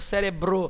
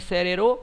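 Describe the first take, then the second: First: Both b and r are pronounced together. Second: The b sound is dropped from the cluster. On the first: The speaker calls it right. "é cérebro" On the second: The speaker calls it wrong. "nem cérero"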